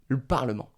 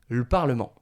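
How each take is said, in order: First: The vowel of 'le' is dropped. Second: The same.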